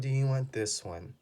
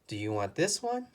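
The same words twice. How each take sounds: First: The voice falls at the end. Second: The voice rises at the end. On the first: This is the last choice offered. "The last word or the last choice always goes down" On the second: This is the first choice offered. "this goes up"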